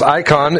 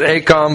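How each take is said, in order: First: The first vowel sounds like 'eye'. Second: The first vowel sounds like 'ay'. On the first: This is the proper pronunciation. The speaker calls it right. "but it's icon" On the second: This is how some people say it. The speaker calls it wrong. "Some pronounce it acon"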